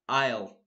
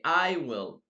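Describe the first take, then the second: First: The word will is contracted onto I. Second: The word will is said in full. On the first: "I will say I'll" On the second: "I will not say I will"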